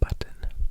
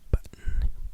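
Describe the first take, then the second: First: Every sound, including both t's, is crisply pronounced. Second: The middle t sounds are softened in American style. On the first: "Very enunciated, B U T T O N" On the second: "the more American accent"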